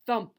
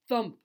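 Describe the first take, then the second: No difference in how they are said.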